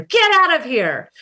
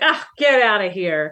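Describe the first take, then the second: First: It is said in an angry tone. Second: It is said in a joking, dismissive tone.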